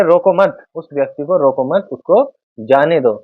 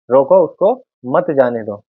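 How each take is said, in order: First: रोको मत said together, then a break before जाने दो; pause after मत. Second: रोको set apart first, then उसको मत जाने दो as one phrase; pause after रोको. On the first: Teacher moving the comma to flip the meaning, pause after मत. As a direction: join मत to रोको, set जाने दो apart. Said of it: "अल्प विराम को मत के बाद". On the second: Teacher showing how a comma changes the meaning, pause after रोको. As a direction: break after रोको, keep मत joined to जाने दो. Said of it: "यहाँ पर अल्प विराम का प्रयोग". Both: Shown as a demonstration.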